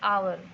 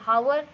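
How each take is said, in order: First: The word begins with a vowel, no h sound. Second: The word begins with an audible h sound. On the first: The speaker calls it right. "इसका correct pronunciation है आर या फिर आवर" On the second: The speaker calls it wrong. "इसका correct pronunciation हावर नहीं है"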